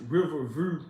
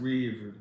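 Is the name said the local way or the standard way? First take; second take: standard; local. First: The name is said in its full standard form. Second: The name is said in a clipped local form. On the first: This is how the name is properly said. "you pronounce it Riverview" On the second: This is how people in the area say it. "everybody just pronounce it Redview"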